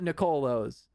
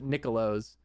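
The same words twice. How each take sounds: First: The first syllable does not sound like 'Nick'. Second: The first syllable sounds like the word 'Nick'. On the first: This is the speaker's own way of saying it. "I call it Nicolo's" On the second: Someone else says it this way. "she calls it Nicolo's, like Nick saying it"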